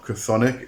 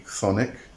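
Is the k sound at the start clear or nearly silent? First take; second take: clear; nearly silent. First: The k sound at the start is clearly heard. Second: The k sound at the start is barely heard. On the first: The speaker calls it wrong. "It's not chthonic" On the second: The speaker calls it right. "it is actually chthonic. Um, the C H is very, very silent"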